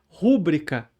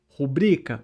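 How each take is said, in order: First: The stress is on the first syllable. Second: The stress is on the second syllable. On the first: The speaker calls it wrong. "rúbrica com essa tônica no U" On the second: The speaker calls it right. "mas o certo é rubrica"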